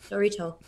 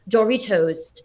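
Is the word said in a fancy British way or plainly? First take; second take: plain; British. First: It is said in a plain, everyday American way. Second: It is said in a fancy, enunciated British way. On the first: The word is treated as ordinary. "The way that I say it" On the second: The word is treated as something very fancy. "she would always say like Doritos. Like as if like it's so bad and so fancy"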